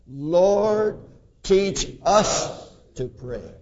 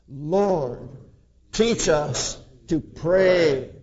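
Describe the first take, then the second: First: The word us carries the main stress. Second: The word pray carries the main stress. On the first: We ourselves are the ones who need teaching. "It's us. Let's emphasize that" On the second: Praying is the thing we need to learn. "Let us emphasize the last"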